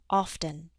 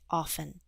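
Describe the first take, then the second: First: The T sound is clearly pronounced. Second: The T sound is left out. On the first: "It's also correct to use the T" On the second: "we tend to drop the T and say often"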